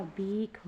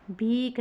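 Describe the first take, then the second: First: भीख slow, ending in breathy "kh"; correct, aspirated. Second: भीख ending in a hard "k"; wrong, unaspirated. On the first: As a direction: puff out the end of भीख. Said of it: "होता है". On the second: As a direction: say भीख as "bheek", no puff. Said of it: "नहीं होता". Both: Shown as a demonstration.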